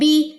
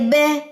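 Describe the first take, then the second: First: The vowel is a clear 'ee' sound. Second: The vowel is an 'ay' sound. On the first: The speaker calls it right. "ई की साउंड आए आखिर में।" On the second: The speaker calls it wrong. "अगर आपने आई की साउंड निकाल दी"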